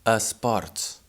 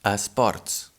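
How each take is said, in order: No difference in how they are said.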